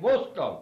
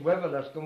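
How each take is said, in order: First: The name is shortened to two syllables. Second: The name is said in full with all syllables. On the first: This is how locals say the name. "we saying Wuscombe" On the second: This is the standard form of the name. "instead of saying Wiveliscombe"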